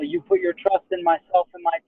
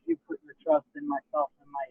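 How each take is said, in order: First: It is said firmly and confidently. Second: It is said weakly and hesitantly.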